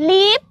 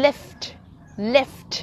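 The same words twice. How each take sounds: First: "Leap" as Thai "líp", no f or t; Thai-style "Leap". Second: Short "Lift" with both f and t; English-style "Lift". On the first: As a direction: say "Leap" for lift in a Thai accent. ("Leap" แทน lift สำเนียงไทย) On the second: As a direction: model "Lift" crisply, sounding the ft ending. ("Lift" แบบอังกฤษ มีเสียง ft ท้าย) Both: Shown as a demonstration. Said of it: "เราสิออกเสียงถูกกันกี่ค".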